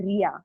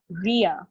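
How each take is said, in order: First: "Ria" with a light tapped R; usual Indian R. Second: "Ria" with a rounded, curled-tongue R; American-style R. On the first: Trainer showing what foreigners don't understand, tapped R in "Ria". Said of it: "they don't understand Ria". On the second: Trainer showing what foreigners understand, "Ria" with an American-like R. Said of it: "They understand Ria". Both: Shown as a demonstration.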